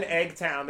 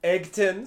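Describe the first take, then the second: First: Eggtown said as egg-town, second syllable like town; wrong pronunciation. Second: Eggton said as egg-tun, short unstressed ending; corrected pronunciation. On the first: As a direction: Eggtown with a full town ending. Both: Real, not acted. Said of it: "I think it's Eggton".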